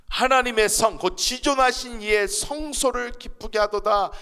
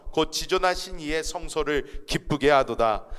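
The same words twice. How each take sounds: First: Slow, loud, raised reading of "지존하신"; emphatic proclamation. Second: Said in the usual way. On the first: Acted. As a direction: proclaim the verse slowly, leaning on "지존하신". Verse repeated with emphasis.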